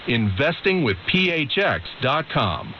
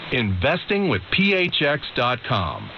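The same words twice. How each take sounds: The two takes are said the same way.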